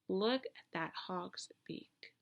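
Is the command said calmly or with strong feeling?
calmly. It is said calmly, without strong feeling.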